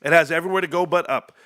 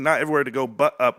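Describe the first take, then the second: First: Said in the usual way. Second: Correcting himself, weight on Not; stress on Not. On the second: Shown as a demonstration. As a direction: lean on Not to fix the line. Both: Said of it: "That's what I mean".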